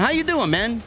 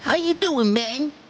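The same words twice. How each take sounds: First: It is read in his normal speaking voice. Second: It is said in a put-on goon voice.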